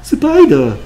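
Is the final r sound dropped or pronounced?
dropped. British accent with the final r sound dropped. "영국 사람? ... 영국 사람들은 얼 소리를 잘 안 내주는 것 같네요"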